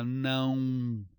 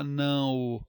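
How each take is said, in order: First: NÃO as one nasal syllable gliding into u; usual pronunciation. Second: NÃO ending in a distinct long ô; wrong spelling pronunciation. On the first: Teacher correcting, NÃO as a slow nasal nãun. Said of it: "Fala não". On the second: Teacher rejecting it, NÃO as nã-ô. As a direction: pull não apart into nã and ô. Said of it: "Ninguém fala não". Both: Shown as a demonstration.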